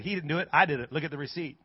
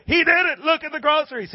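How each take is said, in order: First: Low, soft matter-of-fact correction; imitated unimpressed neighbor; calm rebuttal. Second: High, excited holler; imitated overjoyed woman; excited insistence. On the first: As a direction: set her straight quietly. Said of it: "And he said". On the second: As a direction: insist in a high, delighted cry. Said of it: "She goes".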